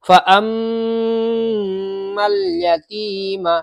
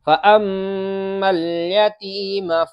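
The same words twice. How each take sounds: First: The doubled m sound is stretched out long. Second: The doubled m sound is not stretched out. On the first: The speaker calls it wrong. "ऐसे ही आमतौर से बच्चे इस मीम को खींच देते हैं" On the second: The speaker calls it right. "इस मीम को नहीं खींचना है बिल्कुल भी"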